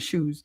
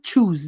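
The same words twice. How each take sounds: First: It is said in her usual accent. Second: It is said with a Spanish accent.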